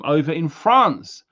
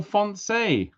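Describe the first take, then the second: First: Said in the usual way. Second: Fonse said the French way, nasal on, high and playful; playful French pronunciation of Fonse; French-style France. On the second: Shown as a demonstration. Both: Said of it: "Oh, Fonse".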